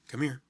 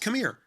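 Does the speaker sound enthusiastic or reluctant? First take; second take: reluctant; enthusiastic. First: It is said in a flat, unwilling tone. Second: It is said in a warm, eager tone. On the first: The helper is only willing, not glad to help. The speaker calls it wrong. "I'm just like, whatever" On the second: The helper is glad to serve. The speaker calls it right. "Where there's some enthusiasm there"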